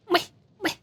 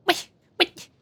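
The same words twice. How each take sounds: The two takes are said the same way.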